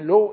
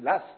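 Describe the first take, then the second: First: The name ends with a vowel sound. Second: The name ends with an s sound. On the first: The speaker calls it wrong. "je disais Law et ils m'ont corrigé" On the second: The speaker calls it right. "des Écossais m'ont affirmé que ça se prononçait Lass"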